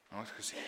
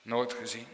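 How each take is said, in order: First: "Nooit" said far softer, nearly breathless; almost whispered echo. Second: "Nooit" said softly with full voice; soft but spoken. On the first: Preacher echoing himself to listeners, hushed. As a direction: let "Nooit gezien" fade to a hush. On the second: Preacher musing to the congregation, softly. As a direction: say "Nooit gezien" quietly, still voiced. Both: Shown as a demonstration.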